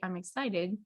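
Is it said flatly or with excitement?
flatly. It is said flatly, without visible excitement.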